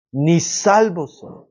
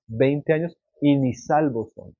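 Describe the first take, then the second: First: "Ni salvos son" said slowly, each word weighed; slow emphatic repeat. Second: Said in the usual way. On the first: Shown as a demonstration. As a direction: let "Ni salvos son" land slowly and heavily.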